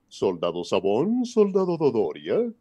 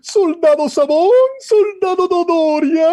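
First: The voice stays deep and commanding. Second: The voice rises to a high pitch. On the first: "tenía que ser" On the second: "lo sube"

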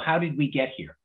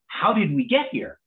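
First: The phrase sounds dismayed and critical. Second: The phrase sounds amazed and delighted. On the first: Investors were complaining about past problems. "it used to be, so, you know" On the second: Investors are impressed by the progress. "Now it's like, wow"

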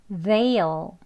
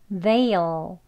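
The two takes are said the same way.

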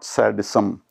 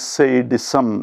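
First: The first vowel sounds like 'sad'. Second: The first vowel sounds like 'say'. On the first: The speaker calls it wrong. "not sadism" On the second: The speaker calls it right. "The word is sadism"

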